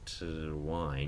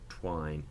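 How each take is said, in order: First: The T is said without lip rounding. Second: The T is said with lips already rounded. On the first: "you're not going twine" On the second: "you're going twine, and your lips are already in that W place"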